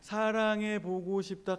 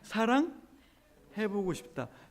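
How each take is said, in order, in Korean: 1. 쉼은 세 번째 음절 뒤에 와요. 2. 쉼은 두 번째 음절 뒤에 와요. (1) "사랑의 다음에 찍으면 연인 사이에 또는 사랑하는 사람 사이에 속삭임이 되고" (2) "쉼표를 사랑 다음에 찍어 볼까요?"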